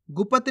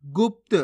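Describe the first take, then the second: First: गुप्त as gu-pat; full-letter misreading. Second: गुप्त as gupt; प closed straight onto त in गुप्त; half-letter pronunciation. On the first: Teacher rejects this reading, गुप्त with full प. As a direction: put a vowel after प in गुप्त. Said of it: "नहीं". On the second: Teacher shows the right reading, गुप्त with half प. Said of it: "कैसे पढ़ेंगे". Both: Shown as a demonstration.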